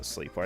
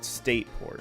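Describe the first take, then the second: First: The name has an L sound after the S. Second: The name has no L sound after the S. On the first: The speaker calls it wrong. "I think I did used to call it Slateport" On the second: The speaker calls it right. "I don't think it has an L in it"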